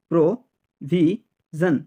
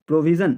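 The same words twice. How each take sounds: First: provision slowly as pro-vi-zon; syllable by syllable. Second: Said in the usual way. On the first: Shown as a demonstration. Teacher drilling learners, provision in slow separate syllables. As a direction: pause after each syllable of provision.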